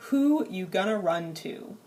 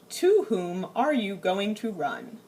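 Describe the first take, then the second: First: "Who you gonna run to?" tossed off casually, everyday speech; casual vernacular. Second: "To whom are you going to run?" said slowly and stiffly, overly formal. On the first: Teacher contrasting the informal translation for students, casual. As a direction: say it like you'd really say it. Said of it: "The vernacular English translation". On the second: Teacher reading the formal translation to the class, stiff and slow. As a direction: read it like stilted textbook English. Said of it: "nobody in English actually talks that way". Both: Shown as a demonstration.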